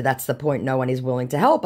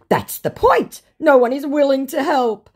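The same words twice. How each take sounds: First: Said in the usual way. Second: High, loud mock protest; hammed-up indignant outburst; exasperated scammer. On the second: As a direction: plead it loudly as the scammer. Voicing the scammer's reply.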